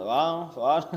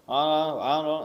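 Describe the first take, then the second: The two takes are said the same way.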